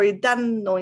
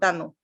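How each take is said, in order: First: The N sound is held long. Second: The N sound is short. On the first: The speaker calls it right. "it's two" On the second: The speaker calls it wrong. "instead of"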